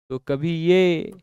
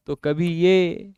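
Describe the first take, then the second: No difference in how they are said.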